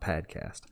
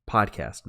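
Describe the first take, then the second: First: The first vowel sounds like 'pad'. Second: The first vowel sounds like 'pod'. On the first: The speaker calls it wrong. "not padcast" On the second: The speaker calls it right. "podcast, not padcast"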